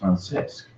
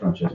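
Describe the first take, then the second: First: The name is pronounced without an Italian-sounding accent. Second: The name is pronounced with an Italian-sounding accent. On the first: The speaker calls it right. "it's Francesc" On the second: The speaker calls it wrong. "you're making that sound Italian. It's not Francesc"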